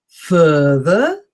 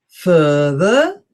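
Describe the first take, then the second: The two takes are said the same way.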